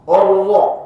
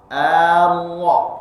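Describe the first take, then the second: First: The opening vowel is thick from the start. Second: The opening vowel is thin before the thick sound. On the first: The speaker calls it wrong. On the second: The speaker calls it right. "kalau diperlambat"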